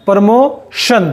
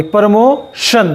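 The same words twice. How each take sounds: First: Said in the usual way. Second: प्रमोशन drawn out slowly, ti as श; slow careful demo. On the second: Shown as a demonstration. (धीरे धीरे प्रमोशन, टी को श बोलें) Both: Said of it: "शे की आवाज़ आएगी".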